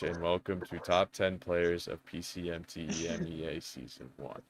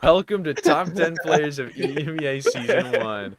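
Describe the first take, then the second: First: It is said like a formal class presentation. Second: It is said like an energetic YouTuber intro.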